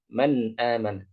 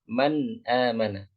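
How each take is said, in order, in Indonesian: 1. Vokal setelah n dimulai dengan lembut. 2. Vokal setelah n dimulai dengan lembut.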